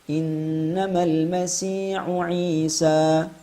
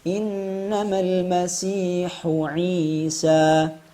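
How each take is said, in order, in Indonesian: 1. Hembusan napas pada h tidak ada. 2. Hembusan napas pada h terdengar jelas. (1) "Contoh yang tidak tepat sekali lagi" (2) "Yang tepat"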